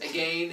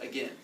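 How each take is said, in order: First: The second syllable rhymes with lane. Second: The second syllable rhymes with pen. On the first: "Because it rhymes with lane" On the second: "as opposed to again"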